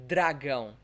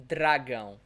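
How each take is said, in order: Both takes have the same delivery.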